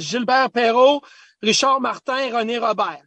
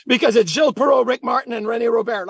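First: Put-on names said with a light French accent, "Robert" as "Robaire"; father's French accent. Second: Said in the usual way. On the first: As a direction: lightly imitate a French-speaking dad saying the names. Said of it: "with the French accent". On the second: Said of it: "who are these guys that you're talking about".

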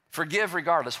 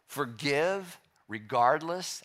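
First: Said in the usual way. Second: Forgive regardless drawn out slowly, rising on Forgive; slow emphasis. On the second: Shown as a demonstration. Preacher stating a teaching, drawn out slowly.

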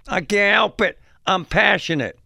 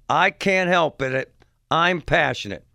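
First: High-pitched, raised-voice mock protest; defensive screaming father. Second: Slow, lightly voiced mock protest; father's retold comeback. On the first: Father answering those asking him to shut up, mock indignant outburst. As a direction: imitate a worked-up sports dad defending himself. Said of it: "The one guy says this". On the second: Host quoting the father's comeback, mildly mocking retelling. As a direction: repeat his excuse deliberately, only lightly acted. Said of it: "And his comeback was".

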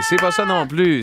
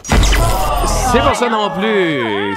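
First: Said in the usual way. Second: Drawn-out verdict. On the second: Shown as a demonstration.

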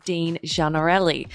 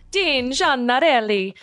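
First: Said in the usual way. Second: Higher, lilting Italian accent. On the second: Shown as a demonstration. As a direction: say the name again as an Italian would. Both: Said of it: "say his name like that every single time".

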